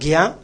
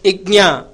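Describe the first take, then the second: First: It starts with a plain g sound. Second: It has a nasal g-ny sound. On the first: The speaker calls it wrong. "It is not gya" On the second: The speaker calls it right. "it is ignya"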